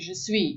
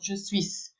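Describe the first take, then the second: First: The final s is silent. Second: The final s is sounded. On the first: The speaker calls it right. "final letters are never pronounced" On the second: The speaker calls it wrong. "not je suis"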